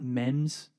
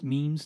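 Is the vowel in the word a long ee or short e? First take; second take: short e; long ee. First: The vowel is a short e sound. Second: The vowel is a long ee sound. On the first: The speaker calls it wrong. "not mems" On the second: The speaker calls it right. "it's pronounced memes"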